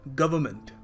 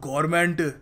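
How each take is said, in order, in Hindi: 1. r और n की ध्वनियाँ छोड़ दी जाती हैं। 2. r और n की ध्वनियाँ बोली जाती हैं। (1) "बिल्कुल अप्रोप्रिएट तरीका होगा इसको प्रोनाउंस करने का" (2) "मगर हम लोग"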